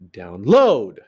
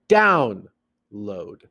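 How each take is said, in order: First: The stress is on the second syllable. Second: The stress is on the first syllable. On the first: The speaker calls it wrong. "What if I flipped it? Sounds weird" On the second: The speaker calls it right. "Stress, unstressed"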